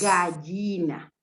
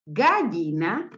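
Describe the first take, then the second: First: "gallina" slow with a firm falling end; slow, settled "gallina" closing down; answer given slowly. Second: "gallina" slow with a rising, questioning end; slow "gallina" left hanging up; option read slowly. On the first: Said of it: "la sílaba inicial de gato es ga, por lo tanto". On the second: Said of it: "¿Qué elementos comienzan con el sonido". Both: Shown as a demonstration.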